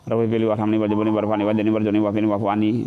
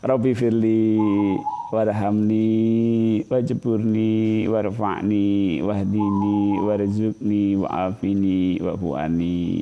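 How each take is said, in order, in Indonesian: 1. Frasa-frasanya menyambung cepat tanpa jeda. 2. Setiap frasa dibaca pelan dan terpisah. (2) "Diminta satu-satu"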